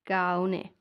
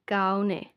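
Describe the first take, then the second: No difference in how they are said.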